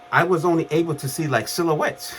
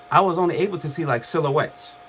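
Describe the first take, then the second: First: Said in the usual way. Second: Laughing through a quick retelling. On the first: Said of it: "repeat with laugh". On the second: Real, not acted. Laughing at himself while retelling waking from the coma. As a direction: chuckle as the line is said again.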